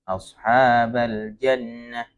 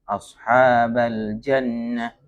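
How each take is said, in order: First: The doubled n is rushed and cut short. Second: The same.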